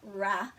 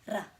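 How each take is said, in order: First: The R is said without a roll. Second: The R is said with a roll. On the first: The speaker calls it wrong. "So it's not ra" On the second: The speaker calls it right. "This is a rolled R"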